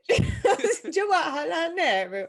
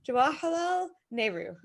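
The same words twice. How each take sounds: First: It is said in a put-on foreign accent. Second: It is said in the speaker's ordinary accent.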